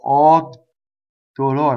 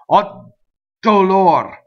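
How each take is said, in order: First: A long silence comes before the consonant. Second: The consonant is hit hard, with little silence.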